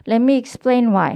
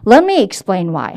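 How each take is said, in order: First: "Let me explain why" with even, unemphasized words; no sentence stress. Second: "Let me explain why" louder, key words punched; content-word stress. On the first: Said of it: "요게 안 들어간 상태로". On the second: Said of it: "하시지 말고요". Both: Shown as a demonstration.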